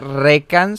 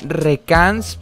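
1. El acento está en la primera sílaba. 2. El acento está en la segunda sílaba. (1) "mi nombre se pronuncia Recans" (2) "Antes yo lo pronunciaba Recans, pero si fuera Recans tendría que tener un acento en la A"

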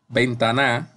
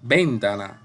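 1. La fuerza está en la última sílaba. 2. La fuerza está en la primera sílaba. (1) "si la pongo en la última, la fuerza" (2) "Comenzamos con ven, ... suena rara"

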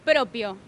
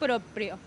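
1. No hay sonido r después de la p. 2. Un sonido r sigue a la p. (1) "siempre nos comemos la curva, sí, y decimos propio" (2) "No, es motu proprio"

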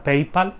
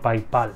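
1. Se dice con vocales de estilo inglés. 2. Se lee con vocales de estilo español. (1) "sé que se pronuncia PayPal" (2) "yo siempre he dicho PayPal y seguiré diciendo PayPal"

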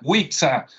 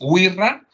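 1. La consonante del medio no es un sonido r. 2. La consonante del medio es un sonido r. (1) "tú la ves y si no sabes dirías, ah, Wixa" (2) "pues resulta que es Wirra"

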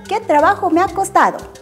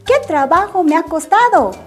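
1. La frase se dice a un ritmo rápido. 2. La frase se dice a un ritmo normal.

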